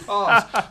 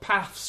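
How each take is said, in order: First: It is said in a southern English accent. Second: It is said in a northern English accent. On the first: This is the way the children actually speak. The speaker calls it wrong. "rather than" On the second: This is the way the speaker wanted the children to speak. The speaker calls it right. "I desperately tried to get them to go up"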